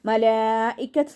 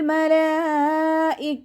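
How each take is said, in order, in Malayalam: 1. വാക്ക് വ്യക്തമായ t ശബ്ദത്തോടെ അവസാനിക്കുന്നു. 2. വാക്ക് t ശബ്ദമില്ലാതെ, മൃദുവായി അവസാനിക്കുന്നു. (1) "മലായിക്കത്ത് എന്ന് പറഞ്ഞിട്ട് വഖഫ് ചെയ്യരുത്" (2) "അതുപോലെ വഖഫ് ചെയ്യാം"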